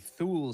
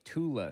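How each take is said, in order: First: The word begins with a 'th' sound. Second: The word begins with a plain 't' sound. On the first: The speaker calls it wrong. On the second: The speaker calls it right.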